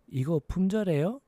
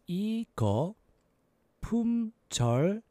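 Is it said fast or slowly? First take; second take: fast; slowly. First: It is said fast. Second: It is said slowly.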